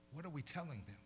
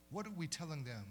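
The two takes are said the same way.

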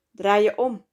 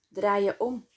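First: Louder, eager order to turn around; aroused command. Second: Steady, unhurried instruction, no raised voice; calm command. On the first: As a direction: push the words out with excitement. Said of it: "sprak June opgewonden". (opgewonden bevel) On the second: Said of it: "gebood ze rustig". (rustig bevel) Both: A narrator's reading.

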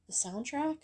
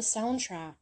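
First: Said in the usual way. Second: Soundtrack slipped into "soundtract", with an added t; habitual mispronunciation. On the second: Real, not acted. Vlogger naming the composer's work, soundtrack mispronounced as "soundtract". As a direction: say soundtrack as if it ended in "tract". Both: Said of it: "I don't know why I always say soundtrack".

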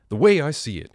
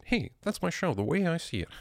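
First: Said in the usual way. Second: Much higher, hammed-up announcer voice; mock show announcer. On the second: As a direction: sell the show title like a jingle. Announces his own show title.

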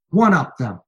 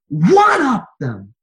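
First: Said in the usual way. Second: High, loud and drawn out; slow preacher shout. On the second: Acted. Sermon climax, repeated command.

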